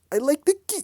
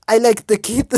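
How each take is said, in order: First: German accent attempt, "the" stressed, higher. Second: Put-on loud try at a German accent, "like" stressed; attempted German accent. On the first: Kurt speaking of the boy, shaky German accent try. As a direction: another go at "I like the kid" in German accent. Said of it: "I can't do a German accent". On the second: Kurt speaking of the boy, failed German accent. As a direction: bark "I like the kid" in a German accent. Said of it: "I hate doing his voice".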